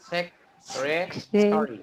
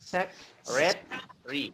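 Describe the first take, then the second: First: It is said with an American accent. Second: It is said with a British accent. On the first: "American প্রনাউন্সিয়েশনে" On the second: "British প্রনাউন্সিয়েশনে"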